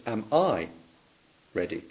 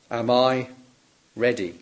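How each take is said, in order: First: I stressed, softer. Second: Ready leaned on, falling; stress on ready. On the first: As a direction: lean on I in am I ready. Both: Shown as a demonstration. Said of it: "another emphasis".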